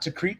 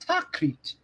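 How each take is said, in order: First: Said with the plain standard English pronunciation. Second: Said with an imitated Arabic-style pronunciation. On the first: The ordinary English way of saying the name. "the standard English pronunciation" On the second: An attempt to copy the original Arabic name. "You're trying to emulate Arabic"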